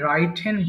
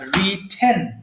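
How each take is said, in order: First: The first vowel sounds like 'eye'. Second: The first vowel is a short 'i'. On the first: The speaker calls it wrong. "ভুল করে রাইটেন বলি" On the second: The speaker calls it right. "ওটা কিন্তু রাইটেন বলা যাবে না, রিটেন"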